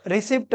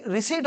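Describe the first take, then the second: First: रिसिप्ट with the p sounded, "ri-SIPT"; common misreading. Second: रिसीट with silent p and long ee, "ri-SEET"; correct pronunciation. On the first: Teacher mimics students' reading, रिसिप्ट with a sounded p. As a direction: say रिसिप्ट as spelt, p and t both heard. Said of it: "इसको क्या पढ़ते हैं आप?". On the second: Teacher corrects the reading, रिसीट with the p silent. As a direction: say रिसीट with no p at all. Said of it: "जबकि रिसीट होता है". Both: Shown as a demonstration.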